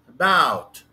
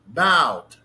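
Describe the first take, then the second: First: The stress is on the second syllable. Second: The same.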